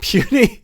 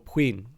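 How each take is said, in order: First: It is said like 'puny', ending in 'ee'. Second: It is said the French way, ending in 'n'. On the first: "That may actually be it" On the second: "it's French"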